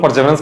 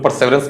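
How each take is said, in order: First: परसेवरेंस said as "per-JEV-rance", with a j sound in place of the s; परसेवरेंस voiced like "perjeverance"; pronounced with a j sound. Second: परसेवरेंस said as "per-SEV-rance", with a clear s; परसेवरेंस with the standard s sound; pronounced with an s sound. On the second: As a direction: say परसेवरेंस with a crisp s in the middle, "perseverance". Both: Shown as a demonstration. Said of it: "कुछ लोग परसेवरेंस कहते हैं".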